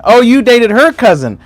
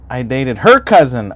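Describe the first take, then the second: First: "her" stressed, high and loud in a teasing mock surprise. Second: Said in the usual way. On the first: Shown as a demonstration. Repeating a viewer's line back to him, stressing "her" in mock surprise. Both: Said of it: "that's what I'd say too".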